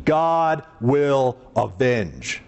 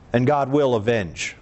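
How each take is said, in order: First: GOD WILL AVENGE, very slow, each word separate; "God ... will ... avenge", weighted word by word; slow, emphatic pauses between God, will and avenge; emphatic deep declaration. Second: Deep, weighty declaration; deep-voiced pronouncement. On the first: Shown as a demonstration. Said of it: "When I say God avenges, I mean". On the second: Real, not acted. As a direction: say it low and solemn. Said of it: "I say that with my deep voice".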